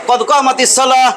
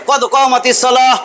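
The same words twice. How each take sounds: No difference in how they are said.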